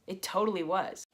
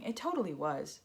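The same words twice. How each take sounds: First: Said in the usual way. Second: Sarcastic. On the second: Shown as a demonstration. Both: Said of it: "Oh yeah, 'cause that's the first thing".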